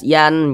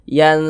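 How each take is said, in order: First: The n sound is pronounced clearly and distinctly. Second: The n sound is hidden and nasalized, held longer. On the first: The speaker calls it wrong. "bunyinya tuh jelas. Yan, jangan, jangan seperti itu" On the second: The speaker calls it right. "tapi disamarkan. Yan, kemudian didengungkan"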